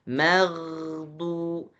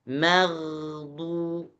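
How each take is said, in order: The two takes are said the same way.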